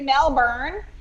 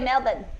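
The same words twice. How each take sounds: First: The name is said in a non-Australian way. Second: The name is said the Australian way. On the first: The speaker calls it wrong. "You don't say Melbourne" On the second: The speaker calls it right. "you say Melbourne. That's how you say Melbourne in Australia"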